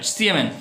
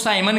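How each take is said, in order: First: The first vowel sounds like 'ee'. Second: The first vowel sounds like 'eye'. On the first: The speaker calls it right. "वास्तविक उच्चारण है वो सीएमएन होता है" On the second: The speaker calls it wrong. "जिसे आप लोग साइमन कहते हो"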